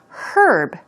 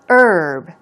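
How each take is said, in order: First: The word begins with an audible H sound. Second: The word begins without an H sound. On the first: "They say it with the H sound" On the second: "without the H sound"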